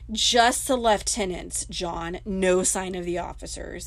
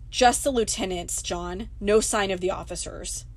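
First: Lieutenant is said the British way, leftenant. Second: Lieutenant is said the American way.

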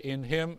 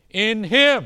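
First: The phrase is said plainly with little force. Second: The phrase is said with strong, intense emphasis. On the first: An amen is just tagged on at the end. The speaker calls it wrong. "Now you just don't say" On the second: The spirit is used in a more intense way. The speaker calls it right. "You say"

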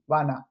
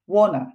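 First: It has an American accent with an open 'wa' vowel. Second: It has a British accent with a rounded 'wo' vowel. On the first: "アメリカ英語だとwanna なんですよね。下手なんだけど私アメリカ英語。wanna みたいな感じ。" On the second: "イギリス英語だとwanna なんですよね。ちょっとwa じゃなくてwo になるみたいな。"

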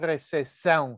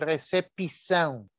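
First: European Portuguese accent, with the P silent. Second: Brazilian Portuguese accent, with the P pronounced.

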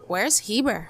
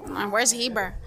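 First: It sounds curious and impressed. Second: It sounds puzzled and dismissive.

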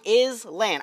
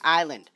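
First: It is said as is-land, with an S sound. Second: It is said eye-land, with no S sound. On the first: "Any person in their right mind is gonna say Island" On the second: "why do you need an S in there if you're going to pronounce it island?"

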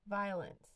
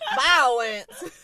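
First: The word is said with two syllables. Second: The word is said with three syllables. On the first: "Then that's like you don't even" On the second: "You got your three syllables now"

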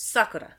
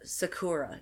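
First: The stress falls on the first syllable. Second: The stress falls on a later syllable. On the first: The speaker calls it right. "No, it's Sakura" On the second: The speaker calls it wrong. "Like people would say"

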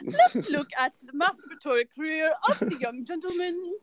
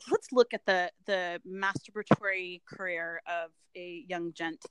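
First: It is said in a British accent. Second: It is said in the speaker's normal accent.

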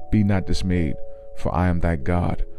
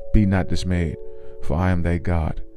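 Both takes have the same delivery.

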